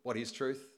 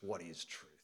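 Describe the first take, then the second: First: It sounds uncertain and ambivalent. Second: It sounds scornful and cynical.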